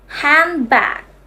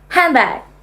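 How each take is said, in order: First: It is slow, with an n sound before b. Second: It is fast, with an m sound before b. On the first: "Say it slowly" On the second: "Now say it faster. The n changed into m"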